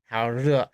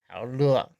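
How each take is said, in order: First: The second word begins with a retroflex R sound. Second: The second word begins with an L sound. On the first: "instead of saying "how re,"" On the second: "They would change it to an L sound"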